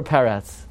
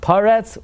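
First: "Peretz" with first vowel as "eh". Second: "Paretz" with first vowel as "ah". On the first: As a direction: say "Peretz" as PEH-retz. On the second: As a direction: say "Paretz" as PAH-retz. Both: Shown as a demonstration. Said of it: "is his name".

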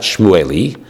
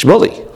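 First: Shmueli with the El sounded, shmoo-AY-lee; unused full form. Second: Shmuli in two syllables, SHMOO-lee, pitched up; usual nickname form. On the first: Teacher rejecting a nickname, Shmueli said slowly as shmoo-AY-lee. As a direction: keep Shmueli long, three slow syllables, shmoo-AY-lee. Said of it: "is not Shmueli". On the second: Teacher giving the real nickname, Shmuli said higher as SHMOO-lee. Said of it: "it's Shmuli". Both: Shown as a demonstration.

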